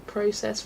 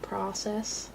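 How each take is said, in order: First: It is said with a Canadian pronunciation. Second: It is said with a non-Canadian pronunciation. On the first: "Canadians also say process" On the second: "rather than process"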